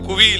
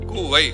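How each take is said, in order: First: The word ends in an 'ee' vowel sound. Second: The word ends in an 'ai' vowel sound. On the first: The speaker calls it wrong. "இது குவி இல்ல" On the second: The speaker calls it right.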